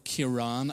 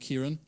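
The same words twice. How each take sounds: First: The name is said in its older, period form. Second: The name is said in its modern form. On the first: This is how the name was said back then. "I think it was actually pronounced at the time" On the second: This is how the name is said today. "We would call him Kieran"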